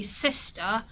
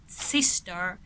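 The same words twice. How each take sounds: First: The R at the end is silent. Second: The R at the end is pronounced. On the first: "someone from the U K would just say" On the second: "someone from the U S will say"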